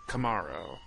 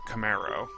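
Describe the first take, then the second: First: The name is said unlike the car's name. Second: The name is said like the car's name.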